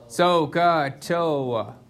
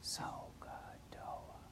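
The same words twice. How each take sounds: First: It is said loudly. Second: It is said quietly.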